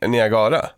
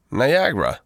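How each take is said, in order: First: "Niagara" tried the Swedish way, as a question; unsure "Niagara" with Swedish vowels, nee-a-GA-ra; Swedish pronunciation attempt. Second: "Niagara" said the English way, nai-AG-ra; English-style "Niagara" as the alternative; English pronunciation attempt. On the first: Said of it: "Är, är det Nia". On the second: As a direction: offer "Niagara" with English vowels, falling tune. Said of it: "inte kan uttala Niagara". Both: Shown as a demonstration.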